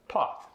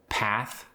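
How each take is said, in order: First: The vowel is a broad British ah. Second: The vowel is a flat American a.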